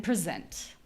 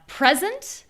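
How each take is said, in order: First: Pr'-ZENT, reduced first syllable; stress on second syllable. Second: PREZ-'nt, high clear first syllable; stress on first syllable. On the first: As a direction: lean on ZENT in "present". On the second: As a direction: punch the PRE of "present". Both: Shown as a demonstration. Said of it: "So you have present and present".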